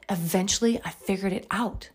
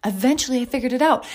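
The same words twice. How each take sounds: First: Soft, dropped-down first telling; soft first take. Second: Quicker, lifted, triumphant second take; emphatic repeat. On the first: Mom on a podcast recalling her struggle, softly. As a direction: murmur it to yourself. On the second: Mom on a podcast telling listeners she made it, emphatic. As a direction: say it again with conviction. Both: Real, not acted.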